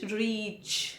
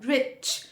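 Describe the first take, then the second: First: "रीच" with a long, drawn-out ee; long stressed ee. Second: "रिच" with a short i. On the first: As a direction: stretch the vowel in "रीच". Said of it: "उसमें जोर देना है". ("रीच" में बड़ी ई पर ज़ोर) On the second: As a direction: keep the vowel brief in "रिच". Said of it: "छोटी ई की मात्रा". ("रिच" में छोटी इ की मात्रा) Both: Shown as a demonstration.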